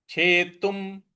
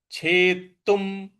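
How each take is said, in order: Both takes have the same delivery.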